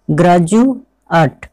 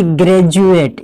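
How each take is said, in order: First: ग्रेजुएट slowly as graa-ju-at, open a sounds; correct pronunciation. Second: ग्रेजुएट as gre-ju-et with e vowels; wrong pronunciation. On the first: Teacher slowly models ग्रेजुएट for students as graa-ju-at. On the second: Teacher contrasts students' wrong ग्रेजुएट, gre-ju-et. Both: Shown as a demonstration. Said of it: "ना कि ग्रेजुएट".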